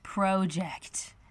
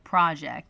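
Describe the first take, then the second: First: The word is said the Canadian way. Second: The word is said the American way. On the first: "we have a Canada Speak alert. ... she says project" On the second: "as we say it in the States"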